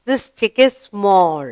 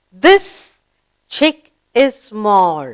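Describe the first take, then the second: First: Said in the usual way. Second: Put-on slow, deliberate reading for children; slow read-aloud. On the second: Shown as a demonstration. Teacher reading a sentence slowly to children. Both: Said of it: "Let's read".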